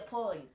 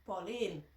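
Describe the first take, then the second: First: "Pauline" as heard on the phone, with the final n barely sounded; heard pronunciation. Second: "Pauline" lower, with a long "leen" ending; repeated pronunciation. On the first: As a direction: imitate a short, lower "Pauline" with a swallowed ending. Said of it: "the thing I would just hear". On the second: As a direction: say "Pauline" back with the final n sounded. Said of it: "how you pronounce it". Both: Retold or imitated.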